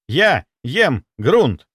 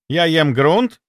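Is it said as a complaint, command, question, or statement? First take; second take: command; question. First: It sounds like a command. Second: It sounds like a question. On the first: Attention is being demanded. "Это приказ" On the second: Something is being asked. "Это вопрос"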